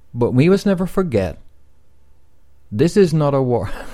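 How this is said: There is a pause after forget. The phrase sticks in the listener's mind. The speaker calls it right. "You got to do it with the pause"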